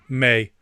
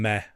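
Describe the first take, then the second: First: The vowel is long, like 'may'. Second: The vowel is short, like 'meh'. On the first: The speaker calls it right. "May, rather than meh" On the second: The speaker calls it wrong. "rather than meh"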